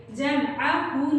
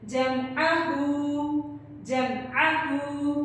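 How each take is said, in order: First: जमअहू with the final हू cut short; wrong short vowel. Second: जमअहू with the हू drawn out one alif, slow; lengthened vowel. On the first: Teacher shows how not to read जमअहू. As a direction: clip the हू of जमअहू, the mistake. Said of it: "जमअहू नहीं करना". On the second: Teacher gives the correct long जमअहू. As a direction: stretch the final हू of जमअहू. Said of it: "उल्टे पेश को हम एक अलिफ के बराबर लंबा". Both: Shown as a demonstration.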